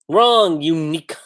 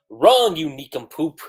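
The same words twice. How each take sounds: First: Sharp loud wrong, pitched up; mock shout. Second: Whispered wrong, you nincompoop; mock whisper. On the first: Reacting to the dub, a loud mock shout. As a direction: snap it out like a scolding teacher. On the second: Scolding the cartoon character in a mock whisper. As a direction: hiss it like a private insult.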